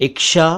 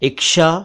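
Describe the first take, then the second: First: The middle consonant is pronounced as ksh. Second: The same.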